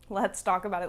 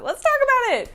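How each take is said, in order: First: Said in the usual way. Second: Jumps way up and louder; a big high-pitched encore of the line; squealed repeat. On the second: Shown as a demonstration. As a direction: squeal it high and loud, playfully. Repeats phrase, much higher.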